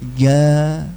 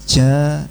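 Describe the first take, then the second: First: The consonant is clean with no hissing. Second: The consonant has a hissing, airy sound. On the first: The speaker calls it right. "ini benar" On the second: The speaker calls it wrong. "ini salah"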